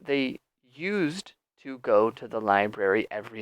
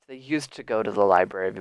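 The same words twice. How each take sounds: First: Each word is said separately and carefully. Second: 'Used to' is relaxed and linked together. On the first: The speaker calls it wrong. "That's very unnatural pronunciation" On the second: The speaker calls it right. "because I'm speaking, you know, relaxed"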